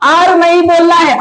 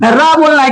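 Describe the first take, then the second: First: आर pronounced as the English letter name. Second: रा as a phonic sound. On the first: Teacher tells learners what not to say, letter name R. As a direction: say आर as "aar", vowel first. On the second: Teacher answers what to say, phonic R. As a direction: say रा as "raa", r first, then open vowel. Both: Shown as a demonstration. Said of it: "इसको क्या बोलना है".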